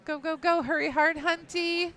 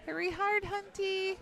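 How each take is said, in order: First: High urgent sweep call; curling skip yelling. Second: Higher, pitched-up sweep call; curling skip yelling. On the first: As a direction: yell at the sweepers to brush. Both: Real, not acted.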